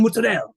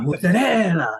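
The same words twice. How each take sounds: First: The final vowel is cut off. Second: The final vowel is fully pronounced. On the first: This is how Italian Americans in New York say it. "they often cut off the vowels here" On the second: This is how people in Italy say it. "You go to Italy"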